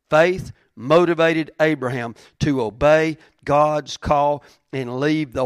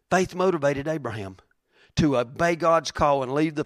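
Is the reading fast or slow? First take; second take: slow; fast. First: It is read at a slower pace. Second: It is read at a normal, quicker pace.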